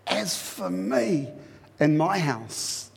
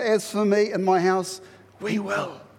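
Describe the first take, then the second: First: The stress is on "me". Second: The stress is on "we will".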